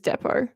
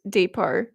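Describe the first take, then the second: First: The word has an Australian pronunciation. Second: The word has an American pronunciation. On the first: "I believe the Australian pronunciation is Depot" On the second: "I think you guys would say it as Depot"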